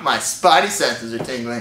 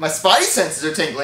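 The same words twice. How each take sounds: First: It is said in a sexy, seductive way. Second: It is said in a plain, ordinary way.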